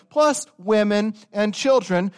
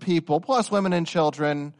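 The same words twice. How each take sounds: First: "plus" hit loud and slow, higher; stress on plus. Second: "plus" given a lighter stress, less loud than the earlier take. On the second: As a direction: let "plus" get a lighter push this time. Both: Real, not acted. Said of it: "I'm emphatic".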